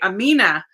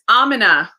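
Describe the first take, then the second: First: The stress is on the second syllable. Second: The stress is on the first syllable. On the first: The speaker calls it wrong. "I always say Amina because I have like Spanish influence" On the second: The speaker calls it right. "the emphasis is on the first syllable, not the second syllable"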